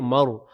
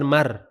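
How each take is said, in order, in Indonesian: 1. Bunyi r-nya tebal dan berat. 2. Bunyi r-nya tipis dan ringan. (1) "tapi maur" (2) "bukan mar"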